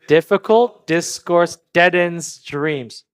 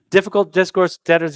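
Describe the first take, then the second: First: It is said at a normal pace. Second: It is said as fast as possible.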